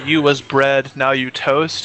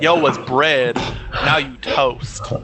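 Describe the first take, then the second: First: It is said in a plain, standard way. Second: It is said in an African American dialect style.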